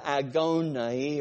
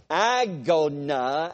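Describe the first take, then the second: First: Agony said slowly with an ah ending, go-na; agony variant. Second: Agona stretched slowly, rising at the end, agonaa; drawn-out agona. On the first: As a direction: slowly say agony as ago-na with a rising end. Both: Shown as a demonstration. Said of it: "some people put the I sound or the E sound".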